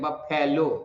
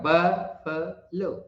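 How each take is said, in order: First: The stress falls on the second syllable. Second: The stress falls on the first syllable. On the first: The speaker calls it wrong. "फै बोल देते हैं, फै नहीं हुआ" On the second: The speaker calls it right. "ब पर ज्यादा जोर पड़ेगा"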